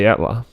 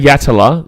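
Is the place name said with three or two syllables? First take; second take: two; three. First: The name is said with two syllables. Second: The name is said with three full syllables. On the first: The speaker calls it right. "you just say Yatla" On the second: The speaker calls it wrong. "If you say Yatala, you're a muppet"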